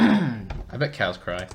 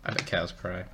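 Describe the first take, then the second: First: I bet cows cry with I raised and stretched; stress on I. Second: I bet cows cry, quieter with cows stressed. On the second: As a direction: lean on the word cows softly. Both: Shown as a demonstration.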